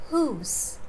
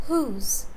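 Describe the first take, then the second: No difference in how they are said.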